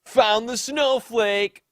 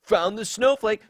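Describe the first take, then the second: First: High, slow, loud smug taunt; a stretched-out, gloating jeer. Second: High mocking smug taunt; a high, sneering jeer. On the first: Retold or imitated. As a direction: gloat it at her. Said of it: "Ray responds". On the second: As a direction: sneer it back at him.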